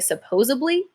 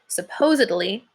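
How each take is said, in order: First: A b sound comes before the ending. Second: A d sound comes before the ending. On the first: The speaker calls it wrong. "flip the D around to make it a B" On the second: The speaker calls it right. "it's supposed to be said supposedly"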